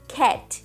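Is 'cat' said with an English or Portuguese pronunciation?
English. It is said with an English vowel sound. The speaker calls it right. "E a gente fala cat"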